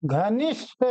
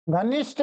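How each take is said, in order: First: घनिष्ठ with breathed gh and released final th; correct pronunciation. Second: घनिष्ठ with plain unbreathed g and ending; wrong pronunciation. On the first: Teacher corrects what people say, घनिष्ठ said carefully as ghanishth. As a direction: breathe the gh and finish घनिष्ठ rising. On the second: Teacher rejects what people say, घनिष्ठ said as ganisht. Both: Shown as a demonstration. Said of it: "घनिष्ठ नहीं".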